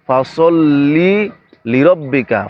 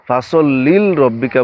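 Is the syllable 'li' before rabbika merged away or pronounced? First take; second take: pronounced; merged. First: The second 'li' syllable is clearly pronounced. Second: The second 'li' syllable is merged away. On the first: The intended meaning of the verse is kept. The speaker calls it right. "ফাসল্লি একটা শব্দ লিরব্বিকা আরেকটা শব্দ" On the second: The meaning of the verse changes. The speaker calls it wrong. "আমরা অনেকে ফাসল্লিল রব্বিকা বলি"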